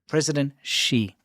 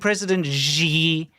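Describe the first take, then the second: First: The name sounds like 'she'. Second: The name does not sound like 'she'. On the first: The speaker calls it right. "It's she, like S H E, she" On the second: The speaker calls it wrong. "Stop saying President Xi"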